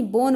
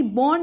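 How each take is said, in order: First: बोन with a long closed o, pitched lower; right pronunciation. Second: बॉन with a short open o, said slowly as the wrong way; wrong pronunciation. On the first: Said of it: "बोन बोलेंगे". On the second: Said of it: "बॉन नहीं". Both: Shown as a demonstration.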